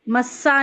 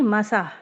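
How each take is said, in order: First: The middle s sound is held long. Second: The middle s sound is short. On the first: The speaker calls it wrong. "मस्सा नहीं" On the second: The speaker calls it right. "नहीं मसा"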